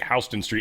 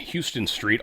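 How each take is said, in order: First: Houston starts with a 'how' sound. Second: Houston starts with a 'hyoo' sound. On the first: This is the name as said in New York. "they were like Houston Street" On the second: This is the name as said in Texas. "It's in Texas"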